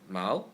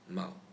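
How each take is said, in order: First: The syllable has a rising pitch. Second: The syllable is light with a neutral tone. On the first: "Mao itself should be in the second tone" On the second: "Mao gets reduced to neutral tone"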